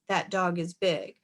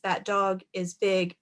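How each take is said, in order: First: All words flow together without pauses. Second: The words are grouped into short phrases. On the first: "reading it as one big phrase" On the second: "putting it together into phrases"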